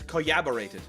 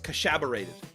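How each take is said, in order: First: The double L is sounded like a Y. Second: The double L is sounded like SH. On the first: "there's two L's" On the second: "Or if you're in like Uruguay"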